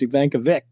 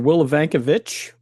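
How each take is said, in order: First: The final CH is not said the Polish way. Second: The final CH is said the Polish way. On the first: The speaker calls it right. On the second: The speaker calls it wrong.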